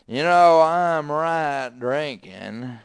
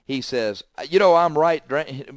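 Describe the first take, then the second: First: It is spoken in a slurred, drunken voice. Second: It is spoken in a plain, clear voice. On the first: "He was drunk as a skunk" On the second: "He didn't say it that way"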